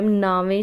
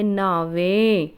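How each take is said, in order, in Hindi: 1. शब्द हल्के से बोला जाता है, बिना अतिरिक्त ज़ोर के। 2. शब्द भारी दबाव के साथ बोला जाता है। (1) "ਉਹਨੂੰ ਆਪਾਂ ਨਾਮ ਕਹਿ ਸਕਦੇ ਹਾਂ" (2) "ਹਲੰਤ ਪਾ ਕੇ ਥੋੜ੍ਹਾ ਜਿਹਾ ਉਹਨੂੰ ਭਾਰਾ ਕਰ ਦਾਂਗੇ"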